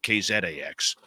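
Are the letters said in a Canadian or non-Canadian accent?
Canadian. The letters are said with a Canadian accent.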